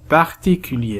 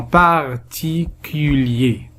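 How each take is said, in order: First: Said in the usual way. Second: "particulier" slowly as par, ti, cu, lier; syllable by syllable. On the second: Shown as a demonstration. Teacher dividing words into syllables, "particulier" slowly split. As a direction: break "particulier" into four separated syllables. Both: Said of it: "nous allons les diviser en syllabes".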